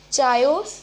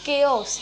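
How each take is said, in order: First: "chaos" with a ch sound, CHAI-os, louder; mispronounced chaos. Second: "chaos" with a hard k, KAY-os; corrected pronunciation. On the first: Teacher showing the mistake, chaos said loudly as CHAI-yos. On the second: Teacher correcting the word, chaos said as KAY-os. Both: Shown as a demonstration. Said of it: "No, it's".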